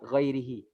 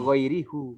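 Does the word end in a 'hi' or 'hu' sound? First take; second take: hi; hu. First: The word ends with a 'hi' sound. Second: The word ends with a 'hu' sound. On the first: The speaker calls it right. "karena di sini diawali dengan kasroh, ya maka bacanya hi" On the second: The speaker calls it wrong. "Jangan dibaca ghairihu"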